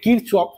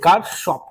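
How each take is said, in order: First: The name is said with a ch sound. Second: The name is said with an sh sound. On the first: The speaker calls it wrong. "এতে কিরচফ" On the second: The speaker calls it right. "সঠিক উচ্চারণ এটাই যে কারশফ"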